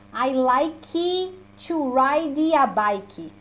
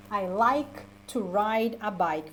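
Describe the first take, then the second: First: I like to ride a bike said as "likit", "ridi", "biki" with extra vowels at the word ends; wrong way. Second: I like to ride a bike said slowly with like, ride and bike ending on their consonants; right way. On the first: Teacher mocking the common learner error, slowly. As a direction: overpronounce the Portuguese way. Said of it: "Se tu não fala, por exemplo". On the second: Teacher modelling the sentence for the class to repeat. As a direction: say it slowly and cleanly with no end vowels. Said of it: "pra vocês pronunciarem junto comigo". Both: Shown as a demonstration.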